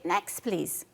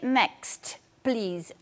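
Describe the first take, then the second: First: The t at the end of next is dropped. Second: The t at the end of next is pronounced. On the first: "I say" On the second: "I don't say"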